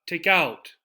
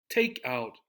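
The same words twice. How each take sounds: First: "out" stressed instead of "take"; wrong stress on OUT. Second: "take" held and stressed. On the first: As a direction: push "out" as the wrong version. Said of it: "not take out". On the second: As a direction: press on "take" and drop "out". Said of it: "We stress the first part". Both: Shown as a demonstration.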